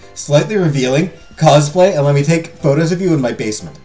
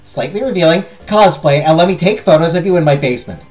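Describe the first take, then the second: First: It is said in a deliberately deeper voice. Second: It is said in a normal, not deepened voice. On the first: The speaker calls it right. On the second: The speaker calls it wrong.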